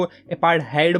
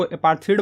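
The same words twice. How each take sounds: First: अपार्थाइड said with an ai sound in the last syllable; ai pronunciation. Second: अपार्थीड said with a long ee in the last syllable; ee pronunciation. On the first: Teacher showing students the other way to say it, a-paar-thaid. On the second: Teacher showing students one way to say it, a-paar-theed. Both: Shown as a demonstration. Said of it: "अपार्थीड बोलो या फिर अपार्थाइड बोलो".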